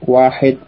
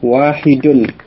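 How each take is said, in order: First: The final case ending is dropped. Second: The final case ending -un is pronounced.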